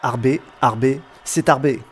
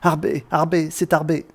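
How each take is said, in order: First: It is said flatly, with little emotion. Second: It is cried out with strong emotion.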